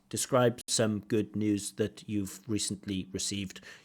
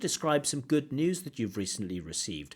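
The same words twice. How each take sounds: First: It is spoken flatly, as if read aloud. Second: It is spoken with natural, lively intonation. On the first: The speaker calls it wrong. "What doesn't sound natural" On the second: The speaker calls it right. "my hopefully natural speech"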